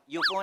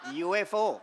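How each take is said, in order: First: It is said as one word, yufo. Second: It is spelled out as letters U-F-O. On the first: The speaker calls it wrong. "युफो नाही" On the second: The speaker calls it right.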